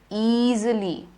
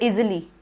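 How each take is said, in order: First: The first vowel is a long E sound. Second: The first vowel is a short I sound. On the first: The speaker calls it right. "You say E. Double E" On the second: The speaker calls it wrong. "You don't say easily"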